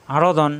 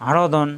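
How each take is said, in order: Both takes have the same delivery.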